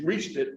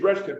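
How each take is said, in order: First: "reached" with a long ee, softly; softer "reached", rhyming with beached; standard REACHED. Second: "retched" with a short e; "retched" in place of reached, short vowel; dialect RETCHED. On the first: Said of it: "but I could use". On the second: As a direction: say "retched" as country dialect, like fetched. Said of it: "I would have used". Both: Shown as a demonstration.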